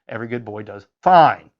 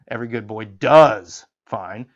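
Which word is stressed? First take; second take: fine; does. First: The stress falls on the word fine. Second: The stress falls on the word does.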